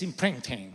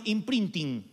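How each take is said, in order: First: "imprinting" in an attempted English accent, dropped low and soft; English pronunciation. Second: "imprinting" said the Argentine Spanish way; Argentine pronunciation. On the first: Preacher correcting himself to the congregation, English-accented "imprinting". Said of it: "En inglés es imprinting". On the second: Preacher showing how Argentines would say it, Argentine accent. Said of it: "Sería en argentino imprinting". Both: Shown as a demonstration.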